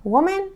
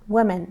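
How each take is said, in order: First: Woman with rounded "wo", high rising tune; Woman, rounded first vowel, pitched high; singular pronunciation demo. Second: Women with "wi" first, falling tune; women, unrounded first vowel, closing fall; plural pronunciation demo. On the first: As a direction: lift Woman up like the first of two, "WO-men". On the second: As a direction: answer with women, "WI-men", falling. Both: Shown as a demonstration. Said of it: "تلفظ این خیلی مهمه".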